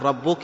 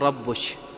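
First: The word ends with a k sound. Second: The word ends with a sh sound. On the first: The speaker calls it right. "مثل ما يقول ربك" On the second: The speaker calls it wrong. "يقول ربش، وهكذا فينطق الكاف شين، فهذا خطأ"

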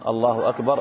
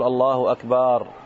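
First: The vowel after the b is kept short. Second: The vowel after the b is drawn out long. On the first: God is greater than everything. The speaker calls it right. "أي الله أعظم وأكبر من كل شيء" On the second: The word comes to mean a drum. The speaker calls it wrong. "كذلك أيضا مد باء أكبر، ما تقول"

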